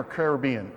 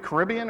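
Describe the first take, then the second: First: Caribbean said care-ih-BEE-un; stress on third syllable. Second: Caribbean said kuh-RIB-ee-un; stress on second syllable. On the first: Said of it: "It's a combination of both". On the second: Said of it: "is it Carib". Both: Shown as a demonstration.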